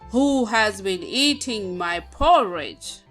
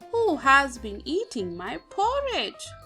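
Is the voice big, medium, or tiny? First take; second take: big; medium. First: It is said in a very loud voice. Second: It is said in a medium-sized voice.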